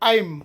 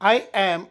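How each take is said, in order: First: The words are run together as one. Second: Two separate words are said in full.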